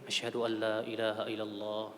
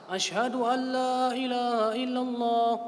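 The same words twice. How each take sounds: First: It is said softly. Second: It is said loudly.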